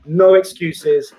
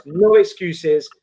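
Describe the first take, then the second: First: "no excuses" slowed right down, weight on "no"; emphatic no excuses. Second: "No excuses" drawn out slowly, each word hammered; emphatic no excuses. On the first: Closing the team talk to the players, slow and emphatic. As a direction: lean hard on "no" in "no excuses" and drag the phrase out. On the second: Manager to his players before the semi-final, slow and firm. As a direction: spell out "No excuses" slowly and firmly like a manager laying down the law. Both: Acted.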